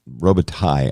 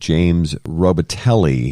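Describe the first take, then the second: First: The name is said with a French-style ending. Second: The name is said with an English-style ending. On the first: This is the original form of the name. "it's a French name, and Robitaille, I think, is the correct pronunciation" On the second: This is the form he uses himself. "he seems to go by"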